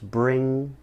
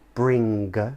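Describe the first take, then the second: First: No hard g sound is heard at the end. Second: A hard g sound is heard at the end. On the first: The speaker calls it right. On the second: The speaker calls it wrong. "we wouldn't say"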